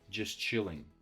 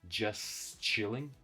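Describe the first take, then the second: First: The two words blend together without a break. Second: The two words are said separately and fully. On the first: The speaker calls it right. "they blend together" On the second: The speaker calls it wrong. "I'm not saying just chilling"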